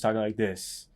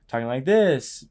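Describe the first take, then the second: First: The pitch falls at the end. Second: The pitch rises at the end. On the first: The speaker sounds certain and authoritative. "Breaking is talking like this" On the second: The speaker seeks approval or confirmation. "Seeking is like talking like this"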